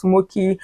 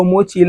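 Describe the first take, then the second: First: Mochi said with a k, "MOH-kee"; alternative pronunciation. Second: Mochi said with a ch, "MOH-chee"; alternative pronunciation. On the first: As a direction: offer Mochi with a hard k as one option. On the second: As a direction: offer Mochi with a ch as the other option. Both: Shown as a demonstration. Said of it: "Is it pronounced Mochi or Mochi?".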